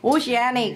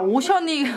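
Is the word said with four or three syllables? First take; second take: four; three. First: The word is said as o-shi-a-nik, four syllables. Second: The word is said as o-shun-nik, three syllables. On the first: The speaker calls it right. "오시아닉 이랍니다, 발음" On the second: The speaker calls it wrong. "그냥 오션닉 아니야?"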